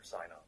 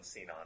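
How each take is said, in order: First: Sinon with a long i in the first syllable; first syllable of Sinon rhymes with "sigh"; Sinon as "SIGH-non". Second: Sinon with a long ee in the first syllable; first syllable of Sinon rhymes with "see"; Sinon as "SEE-non". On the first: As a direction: say Sinon starting like the word "sigh". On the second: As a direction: say Sinon starting like the word "see". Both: Shown as a demonstration. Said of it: "they pronounce it Sinon or Sinon".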